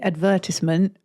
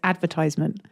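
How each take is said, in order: First: It is pronounced the British way. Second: It is pronounced the American way. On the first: "English pronunciation is meant to be" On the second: "the American is"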